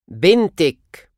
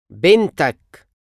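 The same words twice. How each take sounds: First: بنتك said slowly as bentek, ending in -ek; feminine you form. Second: بنتك said bentak, ending in -ak; masculine you form. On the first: Teacher drills the feminine form of your daughter. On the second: Teacher drills the masculine form of your daughter. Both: Shown as a demonstration.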